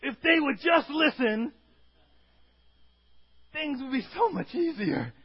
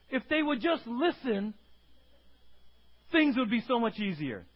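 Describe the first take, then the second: First: Very high, very loud outburst; hammed-up shout of parental frustration; more exasperated parent. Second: Put-on high, loud venting about the kids; raised voice, pleading frustration; exasperated parent. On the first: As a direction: act a parent completely fed up, shouting it. Repeats exasperated parent line, louder. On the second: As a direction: act out a parent at wit's end.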